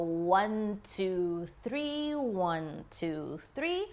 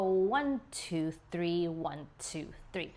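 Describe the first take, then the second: First: The counting is slow. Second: The counting is fast.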